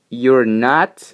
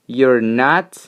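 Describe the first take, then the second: Both takes have the same delivery.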